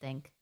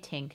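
First: The word starts with a soft th sound. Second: The word starts with a plain t sound. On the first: The speaker calls it right. "she said think" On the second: The speaker calls it wrong. "She didn't say tink"

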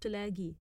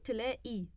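First: The q sound is said as a full qaf. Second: The q sound is said as a glottal stop. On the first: The speaker calls it wrong. "not تلاقي" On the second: The speaker calls it right. "every qaf is automatically switched into a"

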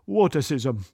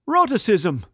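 First: The word begins with a W sound. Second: The word begins with an R sound. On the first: "more commonly pronounced wotacism" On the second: "The condition of not being able to pronounce the letter R is called rotacism"

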